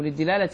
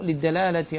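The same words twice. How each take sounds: First: للدلالة said "lid-dilalati"; short I after the D in للدلالة; dilala, I vowel. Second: للدلالة said "lid-dalalati"; short A after the D in للدلالة; dalala, A vowel. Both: Shown as a demonstration. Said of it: "أو للدلالة".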